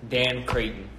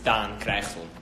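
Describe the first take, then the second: First: The name is said with an English vowel. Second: The name is said with a Dutch vowel. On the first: The speaker calls it right. "my first name is pronounced like how you pronounce it with one A" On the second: The speaker calls it wrong. "But then in Dutch it's Daan Creyghton. Don't call me that"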